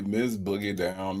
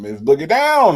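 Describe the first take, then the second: First: Low, soft announcer name drop; hushed announcement. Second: Big welcome. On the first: First take of guest's announced name. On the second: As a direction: hail the guest with a swell. Name repeated louder as welcome. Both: Real, not acted.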